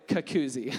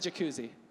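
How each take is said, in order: First: The word begins with a K sound. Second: The word begins with a J sound. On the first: The speaker calls it wrong. "I would say kakuzzi" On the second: The speaker calls it right. "I couldn't say jacuzzi"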